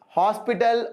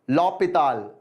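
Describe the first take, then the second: First: The H sound is pronounced at the start. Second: The H sound is silent at the start. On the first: "Hosp Hospital is very common" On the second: "the actual pronunciation is l'hôpital. Okay, so H is silent"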